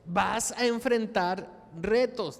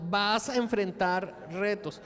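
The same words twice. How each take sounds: First: "vas a enfrentar retos" said slowly with weight on "retos"; slow, weighty warning of "retos"; emphatic sermon line. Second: Said in the usual way. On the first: Shown as a demonstration. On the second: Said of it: "Dile al que está al lado".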